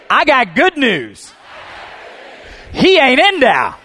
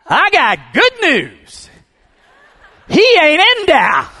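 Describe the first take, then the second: First: Loud, high, slow full-force shouting; preaching shout. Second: Loud, slow, high joyful shout; shouted at the top of his lungs. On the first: Real, not acted. Preacher leading the church to shout, full-force preaching. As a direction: lead the congregation in a shout of joy. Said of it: "shout after me". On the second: Retold or imitated. Man calling out from the empty tomb, joyful shout. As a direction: bellow the good news out of the tomb. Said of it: "at the top of his lungs".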